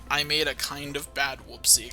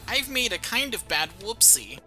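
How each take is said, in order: First: It is said in a plain normal voice. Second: It is said in a put-on silly voice. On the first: "but used the wording" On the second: "not necessarily in that voice"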